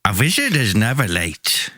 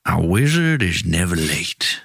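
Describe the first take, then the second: First: Put-on wizard with a hammy Swedish accent. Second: Slow, low Southern wizard; Tennessee drawl. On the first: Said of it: "but you're from Sweden". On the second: Acted. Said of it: "like Matthew McConaughey, like, Tennessee".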